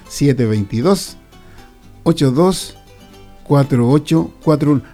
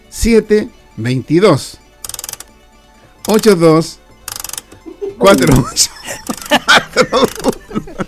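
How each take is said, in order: First: The number is said quickly. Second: The number is said slowly.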